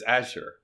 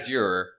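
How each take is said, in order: First: The word is pronounced in a plain, ordinary way. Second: The word is pronounced in a fancier, showy way. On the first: This is the ordinary pronunciation of the real word. "The real word itself is Azure" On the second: This is a pretentious way to say the word. "Azure if you want to be pretentious about it"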